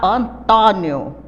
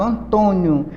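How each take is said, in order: First: The stressed O is an open vowel. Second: The stressed O is a closed vowel. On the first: "Se tivesse um acento agudo, seria Antônio. Aberto" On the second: "Veja que o som é fechado"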